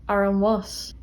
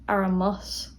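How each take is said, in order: The two takes are said the same way.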